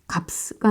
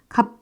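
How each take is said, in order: First: Both final consonants are pronounced, adding an extra sound. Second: Only the first final consonant 'p' is pronounced. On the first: The speaker calls it wrong. "값가 아니라" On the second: The speaker calls it right. "그냥 값 이러고 계시죠"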